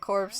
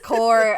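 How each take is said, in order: First: The word ends with a 'ps' sound. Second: The word ends in a plain vowel and 'r'. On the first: The speaker calls it wrong. "I've always pronounced it corpse" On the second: The speaker calls it right. "It's core"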